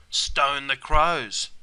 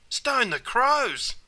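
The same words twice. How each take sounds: First: Said in the usual way. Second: High, drawn-out cry of surprise; surprised exclamation. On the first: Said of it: "another classic Aussie expression". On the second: Shown as a demonstration. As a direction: exclaim it slowly, pitched right up. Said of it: "This is also an expression of surprise".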